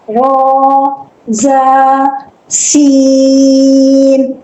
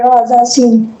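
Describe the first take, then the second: First: The vowels in the letter names are drawn out. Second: The vowels in the letter names are short. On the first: The speaker calls it right. "पढ़ने का तरीका ये है" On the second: The speaker calls it wrong. "ऐसे नहीं पढ़ना"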